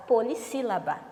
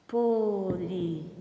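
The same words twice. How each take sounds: First: Said in the usual way. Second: Syllable by syllable. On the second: Shown as a demonstration. Teacher shows pupils the term, "Polissílaba" syllable by syllable. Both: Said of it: "Ó, quatro sílabas".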